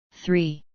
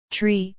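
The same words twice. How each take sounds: First: "Three" said with a clear th sound; corrected three. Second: "Tree" said with a plain t, no th sound; French-accented tree. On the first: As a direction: correct him firmly: "Three". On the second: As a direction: Rocco drops the th: "Tree". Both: Acted.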